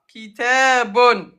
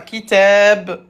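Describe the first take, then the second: First: The word ends with an added 'un' ending. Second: The word ends directly on the final consonant. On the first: The word is read in full, mid-speech. "ضمتين à la fin" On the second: The word is read at a stop. "à l'arrêt"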